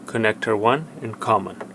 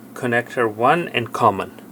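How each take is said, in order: Both takes have the same delivery.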